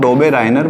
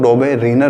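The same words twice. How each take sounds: First: डॉबेराइनर said with a long 'rai' in the middle, do-be-RAI-ner; Doberainer variant. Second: डॉबेरिनर said with a short 'ri', do-be-ri-ner; Doberiner variant. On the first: Teacher showing students one way people say the name, डॉबेराइनर with 'rai'. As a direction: pronounce डॉबेराइनर with the 'ai' diphthong. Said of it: "कुछ लोग डॉबेराइनर बोलते हैं". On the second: Teacher giving students the other way to say the name, डॉबेरिनर with short 'ri'. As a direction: pronounce डॉबेरिनर with a short plain 'i'. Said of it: "कुछ लोग डॉबेरिनर बोलते हैं". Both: Shown as a demonstration.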